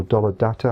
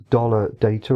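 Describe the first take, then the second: First: "data" said as DAH-tuh; first vowel of "data" open, not as in "day"; DAH-ta pronunciation. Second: "data" said as DAY-tuh; first vowel of "data" as in "day"; DAY-ta pronunciation. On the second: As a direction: say "data" with a long ay in the first syllable. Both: Shown as a demonstration. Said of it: "however you want to say that".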